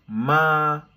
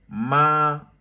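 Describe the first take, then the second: First: The pitch stays high and level. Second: The same.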